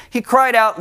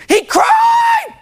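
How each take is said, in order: First: Said in the usual way. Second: Very high, drawn-out desperate shout; crying out. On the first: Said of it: "when you read it, it doesn't sound". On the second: Shown as a demonstration. Preacher showing how Peter's cry really sounded, shouted in distress. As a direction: stretch CRIED into a high, loud wail. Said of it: "it doesn't sound".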